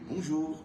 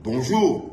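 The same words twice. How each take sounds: First: It is said at normal volume. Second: It is said loudly.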